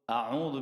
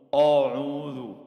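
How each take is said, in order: First: The first vowel is an open 'a' sound. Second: The first vowel is a rounded 'o' sound. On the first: The speaker calls it right. "Hamzah itu dibacanya dibaca A" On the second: The speaker calls it wrong. "bukan O"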